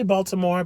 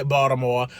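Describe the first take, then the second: First: "Baltimore" with the L and T sounded; pronounced as spelled. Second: "Baltimore" with the L dropped, like "Bawdamore"; friend's local pronunciation. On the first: Shown as a demonstration. Explaining her own way to viewers, "Baltimore" pronounced as spelled. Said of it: "I say Baltimore because that's the way it's spelled". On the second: Retold or imitated. Quoting a friend from the city, "Baltimore" in local pronunciation. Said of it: "as my friend Melissa will say".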